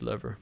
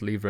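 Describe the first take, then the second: First: It is said with an American pronunciation. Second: It is said with a British pronunciation. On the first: The speaker calls it wrong. "and then said lever" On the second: The speaker calls it right. "I'll stick with lever"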